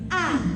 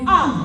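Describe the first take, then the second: First: The vowels are said with lively expression. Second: The vowels are said plainly, without expression.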